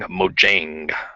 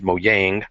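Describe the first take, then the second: First: The name is pronounced the English way. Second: The name is pronounced the Swedish way. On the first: "that's the best way to say it in English" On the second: "in Swedish you would say it as Mojang"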